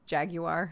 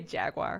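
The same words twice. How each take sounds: First: It is said in the British way. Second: It is said in the American way.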